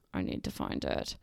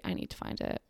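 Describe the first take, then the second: First: Repeated in a much lower, mock-deep voice; goofy low-voiced repeat. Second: Whispered under her breath; unvoiced whisper to herself. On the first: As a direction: drop the pitch way down for a joke. Repeats it, searching. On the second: Real, not acted. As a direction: whisper it to yourself while searching. Muttering to herself, searching.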